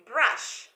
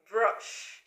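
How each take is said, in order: First: "brush" with the vowel ah, said slowly; teacher's careful "brush" with an open ah; correct brush. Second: "brush" with a short uh vowel as the wrong form; teacher demonstrating the wrong "brush" vowel. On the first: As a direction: model "brush" as brah-sh, drawn out. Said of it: "so we say brush". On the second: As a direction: show the mistaken "brush" rhyming with hush. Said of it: "So we don't say brush". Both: Shown as a demonstration.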